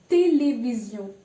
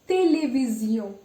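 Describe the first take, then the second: No difference in how they are said.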